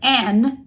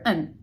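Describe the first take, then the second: First: The word is said with a full vowel. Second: The word is said with a weak, reduced vowel. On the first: "Instead of an" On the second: "you're going to hear an"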